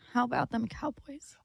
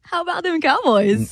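First: It is said in a sad tone. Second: It is said in an embarrassed tone.

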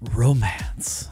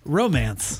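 First: It is said in a romantic, seductive tone. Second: It is said in a plain, neutral way.

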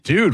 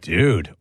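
First: It sounds questioning, like a challenge. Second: It sounds positive and approving.

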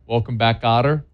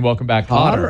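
First: It is said at a normal speed. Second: It is said very fast.

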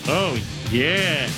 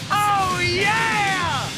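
First: It is said flatly, without excitement. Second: It is said with lively excitement.

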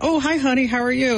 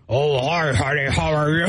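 First: It is said in her own voice. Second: It is said imitating her teenage son's voice.

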